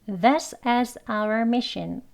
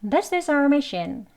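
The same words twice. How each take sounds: First: Slow and deliberate, OUR in two beats; each word fully formed and separate; slow teacher's model sentence; slow careful English. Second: OUR reduced to "ar", glued to IS; higher, run-together THIS IS OUR; linked weak OUR. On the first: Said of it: "문장 천천히 말하는 경우로". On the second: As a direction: link the words, keep OUR to one syllable. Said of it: "그냥 our mission 이렇게". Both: Shown as a demonstration.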